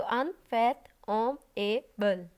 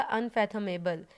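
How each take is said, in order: First: अनफैथमेबल very slowly broken into five syllables. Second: Said in the usual way. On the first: Shown as a demonstration. Teacher showing a five-syllable word to the class, अनफैथमेबल said syllable by syllable. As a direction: split अनफैथमेबल into five spaced-out beats. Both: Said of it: "five वाले में जो remaining word".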